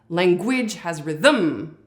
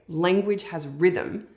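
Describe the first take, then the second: First: The stress falls on unexpected syllables. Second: The stress is on lang and rhyth. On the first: The speaker calls it wrong. "It sounds like a weird robot gone wrong" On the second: The speaker calls it right. "accented syllables on the syllable lang and rith"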